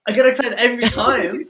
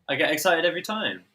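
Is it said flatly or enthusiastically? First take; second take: enthusiastically; flatly. First: It is said with more enthusiasm. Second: It is said flatly, without enthusiasm.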